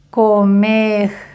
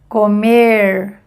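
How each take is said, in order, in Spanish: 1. La r final suena como una r francesa. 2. La r final suena como una r inglesa. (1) "semejante al de francés o a un J en español" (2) "Primer ejemplo en inglés"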